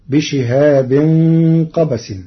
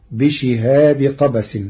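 First: Said in the usual way. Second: بشهاب with no nunation, bishihabi qabas; Warsh reading. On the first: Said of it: "قرأ ورش كلمة بشهاب". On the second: Shown as a demonstration. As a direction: join بشهاب straight onto قبس without -in. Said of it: "بدون تنوين". (بشهاب بدون تنوين مضافا إلى قبس)

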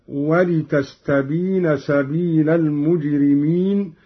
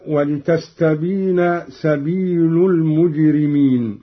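First: سبيل said "sabila", ending in "a"; accusative lam. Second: Said in the usual way. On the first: Shown as a demonstration. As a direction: put a fatha on the lam of سبيل before المجرمين. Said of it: "قرأ قالون بنصب اللام هكذا". (سبيل بنصب اللام) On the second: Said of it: "قرأ قالون بنصب اللام".

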